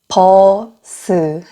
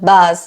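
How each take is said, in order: First: The word is said as two syllables. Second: The word is said as one syllable. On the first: "한국어로는 버스 해서 두 이음절이에요" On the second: "영어로는 bus 해서 이름절이죠"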